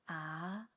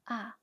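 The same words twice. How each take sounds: First: The pitch rises from middle to high. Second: The pitch falls sharply from high to low.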